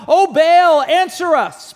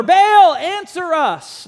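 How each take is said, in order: First: Raised pleading call, higher and louder; shouting prophets. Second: Much higher, louder cry on Baal, dragging answer us slowly; shouting louder. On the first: Prophets of Baal shouting to their god, raised pleading call. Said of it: "they start shouting". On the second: Prophets of Baal shouting louder to their silent god, desperate cry. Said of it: "shout all the louder". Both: Retold or imitated.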